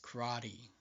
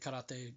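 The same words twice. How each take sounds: First: It is said with an American English pronunciation. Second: It is said with a native, non-American pronunciation. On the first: The speaker calls it wrong. "American people would like saying" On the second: The speaker calls it right. "That's how you actually say it"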